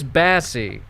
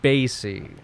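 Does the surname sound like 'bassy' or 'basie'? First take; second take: bassy; basie. First: The surname is said like 'bassy'. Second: The surname is said like 'basie'. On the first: This is how the player himself says it. "He'll tell you it's Bassey" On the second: This is the speaker's own preferred version. "but it is Esang Basie"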